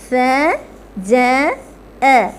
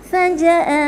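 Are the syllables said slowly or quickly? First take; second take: slowly; quickly. First: The syllables are said slowly and separately. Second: The syllables are said quickly, run together.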